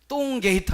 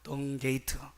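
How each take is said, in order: First: The first consonant is a tense, hard tt. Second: The first consonant is a plain, lax d. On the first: The speaker calls it wrong. "하면 안 됩니다" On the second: The speaker calls it right. "발음을 잘해야 합니다"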